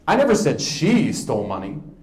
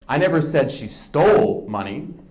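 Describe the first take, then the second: First: The word 'she' is stressed. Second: The word 'stole' is stressed.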